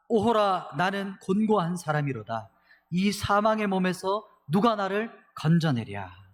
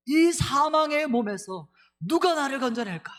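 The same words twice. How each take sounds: First: Loud, slow, anguished lament; anguished cry. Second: Much higher, louder and slow, desperate outcry; anguished cry. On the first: Pastor voicing Paul's despairing cry to the congregation, loud and slow. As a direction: cry out as if in torment. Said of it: "이렇게 절규하는 거예요". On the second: Pastor acting out Paul crying out from his body of death. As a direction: wail it as a soul in torment. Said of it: "이렇게 막 절규하는 목소리죠". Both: Retold or imitated.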